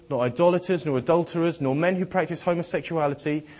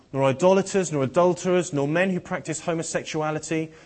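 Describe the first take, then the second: The two takes are said the same way.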